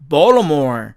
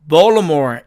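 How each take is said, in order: First: The t sound is dropped. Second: The same.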